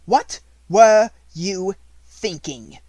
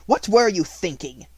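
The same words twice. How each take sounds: First: Loud, high, slow outraged shout; furious. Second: Loud, higher demand. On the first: Headmistress raging at a defiant pupil, loud and slow. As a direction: explode with outrage, dragging every word. Repeat, enraged. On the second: Headmistress demanding an answer, loud and sharp. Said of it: "demanded Miss Minchin". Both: A narrator's reading.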